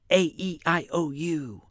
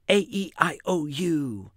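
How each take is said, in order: No difference in how they are said.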